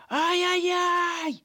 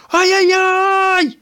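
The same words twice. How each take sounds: First: Extremely high, slow squealing cry; frightened squeal. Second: Extremely high, loud, slow frightened cry; panicked yell. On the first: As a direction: squeal and flee. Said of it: "заверещав блискавка". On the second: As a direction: yell in panic as they chase you. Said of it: "закричав блискавка". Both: A narrator's reading.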